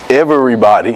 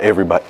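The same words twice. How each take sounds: First: Each syllable is spoken separately and deliberately. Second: The word is spoken quickly as one smooth unit. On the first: "I said that with syllables" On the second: "not everybody"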